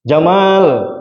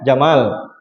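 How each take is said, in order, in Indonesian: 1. Vokal setelah m itu panjang. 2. Vokal setelah m itu pendek. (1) "mimna panjang" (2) "mimna pondok"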